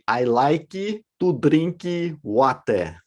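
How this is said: It is said with a Brazilian Portuguese accent.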